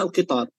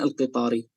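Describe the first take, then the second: First: The word ends on the consonant r. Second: The word ends with an added i vowel. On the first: The speaker is pausing after the word. The speaker calls it right. "sebenarnya al-qitar" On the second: The case ending is kept though the speaker stops. The speaker calls it wrong. "bukan al-qitari"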